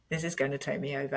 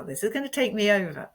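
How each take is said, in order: First: Fast, much softer, sinking repeat; quiet dread. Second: Quick, higher, alarmed realisation; rising alarm. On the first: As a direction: let it drop to a worried hush. Same thought repeated, fading. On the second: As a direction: feel it rush up and say it fast. Feeling emotion rise, retold thought. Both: Retold or imitated.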